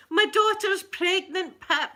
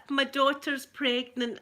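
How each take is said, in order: First: Higher, louder and slow, bursting with the news; excited announcement. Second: Calmer repeat. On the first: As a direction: announce it proudly, loud and high. Repeats big news to a viewer. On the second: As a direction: say it again, settling down. Repeats big news, calmer. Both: Real, not acted.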